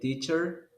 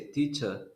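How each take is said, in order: First: The final R sound is pronounced. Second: The final R sound is dropped. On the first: "Instead of saying teacher" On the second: "they say teacher. They don't pronounce the R"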